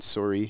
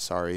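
First: Said with a Canadian accent. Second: Said with an American accent.

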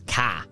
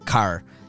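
First: It ends in an open A, Australian style. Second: It ends with an R sound, as learned in Chile.

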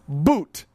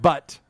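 First: The vowel is a long oo sound. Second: The vowel is a short uh sound. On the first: The speaker calls it right. "it's pronounced boot" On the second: The speaker calls it wrong. "Not butt"

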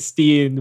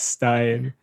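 First: The ending has an 'ee' vowel, like 'steen'. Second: The ending has an 'eye' vowel, like 'stine'. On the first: The speaker calls it wrong. "I think I used to say Steen" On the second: The speaker calls it right. "I think it's Stein"

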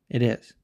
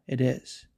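Both takes have the same delivery.

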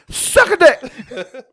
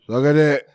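First: It is said in a lively, confident tone. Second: It is said in a flat, depressed tone.

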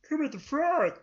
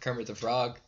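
First: It is said in a Kermit the Frog voice. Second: It is said in his normal voice.

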